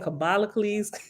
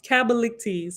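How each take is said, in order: First: The name ends with a -cles sound. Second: The name ends with a -ctes sound. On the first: The speaker calls it wrong. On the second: The speaker calls it right.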